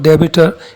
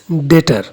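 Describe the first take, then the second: First: A b sound is pronounced in the middle. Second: No b sound is pronounced in the middle. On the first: The speaker calls it wrong. "It is not debitor" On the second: The speaker calls it right. "B is silent here"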